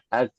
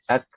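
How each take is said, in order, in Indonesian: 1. K akhir memantul menjadi vokal tambahan. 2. K akhir berhenti, tanpa udara yang keluar. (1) "Tapi jangan sampai pantulan" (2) "bukan ak ak ak"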